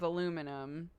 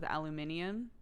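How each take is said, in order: First: It is said with four syllables, American style. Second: It is said with five syllables, British style. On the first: This is the form used in America. "we stuck with aluminum" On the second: This is the form used in England. "England stuck with aluminium"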